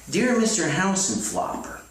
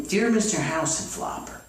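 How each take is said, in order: Both takes have the same delivery.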